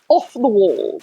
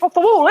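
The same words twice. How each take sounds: First: It is said in a posh accent. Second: It is said in a Somerset accent. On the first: "if I would pronounce it in the pop accent" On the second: "In Somerset, we say it's off the wall"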